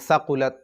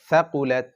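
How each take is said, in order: First: The first consonant is a hissing s sound. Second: The first consonant is a soft th sound. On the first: The speaker calls it wrong. "এখানে সাকুলাত চলবে না, সাকুলাত সাকুলাত হলে সিন হয়ে যাবে" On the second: The speaker calls it right. "এটা হবে ফাআম্মা মান সাকুলাত"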